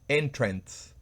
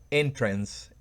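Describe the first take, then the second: First: The stress is on the first syllable. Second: The stress is on the first syllable.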